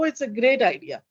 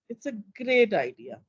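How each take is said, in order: First: The tone sounds warm and genuinely positive. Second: The tone sounds negative and mocking. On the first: The idea is truly liked. "Positive. ... I'm in agreement with someone. Absolutely" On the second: The idea is actually thought bad. "I'm actually going into negatives. ... I even became sarcastic"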